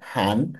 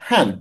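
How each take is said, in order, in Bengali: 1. "han" শব্দাংশটি চতুর্থ টোন ছাড়া অন্য টোনে বলা হয়েছে। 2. "han" শব্দাংশটি চতুর্থ টোনে বলা হয়েছে। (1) "আর ওটা ছিল হান" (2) "এটা ফোর টোন ছিল হান"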